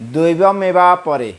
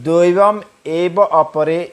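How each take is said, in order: First: The words are run together without breaks. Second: The words are said separately, one by one. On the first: "যদি একসাথে উচ্চারণ করা হয়" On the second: "ভেঙে যদি বলা হয়"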